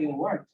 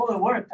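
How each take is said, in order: First: Lower, quieter, mildly dismissive echo; unimpressed. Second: A light, pleased little exclaim, imitating people; lightly imitating someone delighted the dhikr worked; mock excited. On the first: Retold or imitated. Preacher echoing the grateful man, low and unimpressed. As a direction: shrug it off as obvious. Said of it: "I was like". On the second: People thanking the preacher, mildly excited. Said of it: "People are like".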